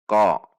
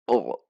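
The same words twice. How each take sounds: First: Loud, short "ko" with a clear back-of-the-mouth q; correct qaf. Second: "o" swallowed at the back of the throat in place of "ko"; wrong too-far-back qaf. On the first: Teacher models the right qaf, clearly struck. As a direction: strike "ko" firmly, not swallowed into the throat. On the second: Teacher shows the wrong qaf, too far back. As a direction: lose the k, leaving a throaty "o". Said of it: "Tidak dibaca". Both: Shown as a demonstration.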